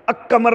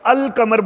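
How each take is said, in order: First: The 'l' is silent and 'q' is doubled. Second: The 'l' is pronounced before 'qamar'. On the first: The speaker calls it wrong. "नहीं बोल सकते" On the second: The speaker calls it right. "लाम को बाकायदा सामने करेंगे"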